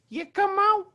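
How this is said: It is said in a high-pitched voice.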